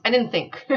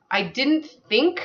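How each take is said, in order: First: "didn't" stressed, "think" falling to a full stop with a laugh; amused falling close on "think"; laughing final fall. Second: Rising tune on think, left hanging mid-sentence; unfinished upward lilt on "think"; trailing unfinished rise. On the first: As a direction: land "I didn't think" as a finished sentence, chuckling. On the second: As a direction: let "think" rise and hang as if more is coming. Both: Real, not acted. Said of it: "I think that's the end of that sentence".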